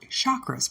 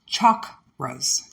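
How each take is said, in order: First: The word is said in an Americanized way. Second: The word is said in its original, non-American way. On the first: This is how Americans adapted the word. "We Americanized it, and we call it chakras" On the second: This is the word's proper native pronunciation. "actually pronounced chakras"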